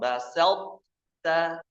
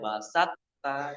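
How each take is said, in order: First: The middle t sound is strong and heavy. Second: The middle t sound is flat and light. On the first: The speaker calls it right. "Pokoknya harus kuat. Basalta. Begitu" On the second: The speaker calls it wrong. "ini datar banget ya. Basatta, keliru"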